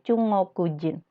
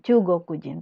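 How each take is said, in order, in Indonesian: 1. Huruf g di tengah diucapkan sebagai ng sengau. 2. Huruf g di tengah diucapkan sebagai g keras. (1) "Dia menggunakan G ini jadi eng. Jadi Chungokujin" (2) "Bukan Chugokujin, tapi banyak juga yang pakai Chugokujin"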